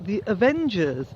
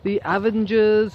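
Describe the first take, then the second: First: The name is pronounced in the standard way. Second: The name is pronounced in an altered, nonstandard way. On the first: This is the name the presenters actually meant. The speaker calls it right. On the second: This is how the radio presenters said it. The speaker calls it wrong.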